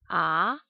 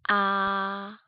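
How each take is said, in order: First: The pitch rises like a question. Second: The pitch stays high and level. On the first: "Second tone sounds like when we are asking a question" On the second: "First tone sounds like when we sing"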